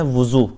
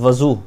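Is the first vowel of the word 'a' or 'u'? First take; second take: u; a. First: The first vowel is a rounded 'u' sound. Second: The first vowel is an open 'a' sound. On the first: The full ritual washing before prayer. "वाओ के दम्मा के साथ" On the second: The water used for the ritual washing. "ज़बर के साथ वज़ू"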